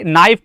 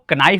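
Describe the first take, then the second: First: The word starts with an n sound, no k. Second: The word starts with a k sound before n. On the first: The speaker calls it right. "यानी कि नाइफ" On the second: The speaker calls it wrong. "कनाइफ बोलते हैं"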